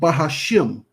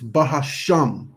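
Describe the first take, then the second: First: The last syllable has an 'ih' vowel. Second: The last syllable has an 'ah' vowel. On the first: The speaker calls it wrong. "It's not Bahashim" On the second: The speaker calls it right. "It's Bahasham"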